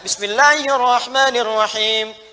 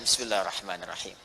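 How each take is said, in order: First: The phrase is recited loudly. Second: The phrase is recited very quietly. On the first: "Baca kencang"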